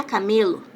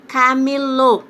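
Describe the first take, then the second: First: "camelo" com a força em ME; sem acento. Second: "Camelô" com o último O fechado e forte; tônica no Ô. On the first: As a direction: diga "camelo" com ME tônico e O final fraco. ("camelo" paroxítona, tônica no meio) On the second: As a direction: acentue a sílaba final de "Camelô". ("Camelô" oxítona, alto e marcado) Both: Shown as a demonstration. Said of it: "Se eu tirar o acento".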